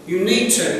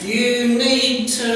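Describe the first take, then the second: First: It is said at an ordinary, everyday speed. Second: It is said slowly, with each word clear. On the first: "But if you're saying it normal speed" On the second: "But if you say it slowly"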